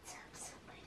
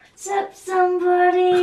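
First: It is said at a quieter volume. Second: It is said at a louder volume.

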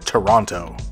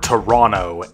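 First: It is said with a standard pronunciation. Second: It is said with a local pronunciation.

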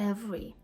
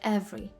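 The two takes are said the same way.

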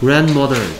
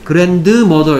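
First: The d sound is dropped and unheard. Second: The d sound is clearly pronounced. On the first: The speaker calls it right. "D 소리가 힘이 없어서 사라져 버려요" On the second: The speaker calls it wrong. "grandmother 이렇게 발음 안 해요"

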